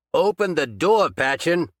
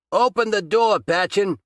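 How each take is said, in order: First: A bit louder, weaker repeat of the demand. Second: Loud, high angry shout at the door. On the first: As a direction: demand again, strength fading. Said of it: "He was weak from the loss of blood". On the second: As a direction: bang on the door and yell. Detective beating on locked door. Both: A narrator's reading.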